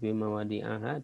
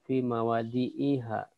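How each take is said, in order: First: The vowel before the final -ha is a. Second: The vowel before the final -ha is i. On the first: The speaker calls it wrong. "tidak dibaca" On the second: The speaker calls it right.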